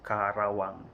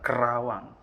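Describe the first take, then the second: First: The first vowel is a full 'a' sound. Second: The first vowel is a weak schwa sound. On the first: The speaker calls it right. "artikulasinya harus dibaca Karawang ya" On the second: The speaker calls it wrong. "bukan Kerawang ya"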